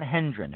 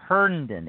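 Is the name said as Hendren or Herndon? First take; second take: Hendren; Herndon. First: The name is said as Hendren. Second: The name is said as Herndon. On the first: The speaker calls it wrong. "not Hendren" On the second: The speaker calls it right. "It's Herndon"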